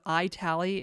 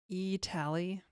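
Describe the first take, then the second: First: The first syllable sounds like 'eye'. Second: The first syllable sounds like 'eat'. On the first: "Instead of I tally" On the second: "it's like eat"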